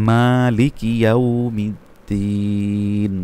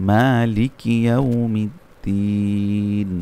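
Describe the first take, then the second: No difference in how they are said.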